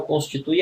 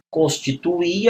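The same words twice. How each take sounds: First: "Constitui" stressed on TU, with "ui" as one gliding syllable; present-tense stress. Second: "Constituir" as cons-ti-tu-Í, final r silent, stress on last i; past-tense stress. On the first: Teacher contrasting present with past, "Constitui" stressed on TU. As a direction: say "Constitui" with a diphthong ending. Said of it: "Constitui é o presente". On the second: Teacher contrasting past with present, "Constituir" ending on stressed Í. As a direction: land on a separate stressed í in "Constituir". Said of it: "Constituir é o passado". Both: Shown as a demonstration.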